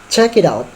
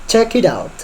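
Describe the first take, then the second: Both takes have the same delivery.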